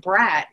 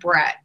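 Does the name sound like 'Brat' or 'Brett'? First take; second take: Brat; Brett. First: The vowel sounds like the a in cat. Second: The vowel sounds like the e in bet. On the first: The child is being called a spoiled brat. The speaker calls it wrong. "he was never going to call my son Brat again" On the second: The child is called by his real name. The speaker calls it right. "my youngest child's name is Brett"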